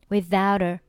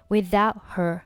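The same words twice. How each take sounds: First: The t is voiced and linked to the vowel. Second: The t at the end of without is dropped. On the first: "辅元连读，并且可以浊化一下" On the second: "without 末尾t 不发音"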